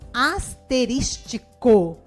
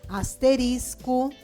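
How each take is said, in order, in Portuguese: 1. A palavra tem uma sílaba extra -ti- antes do final. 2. A palavra termina em -risco, sem sílaba extra.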